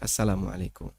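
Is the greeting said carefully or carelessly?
carefully. The whole greeting is said clearly and earnestly. The greeting is meant as a sincere prayer. The speaker calls it right. "Ya yang serius ya"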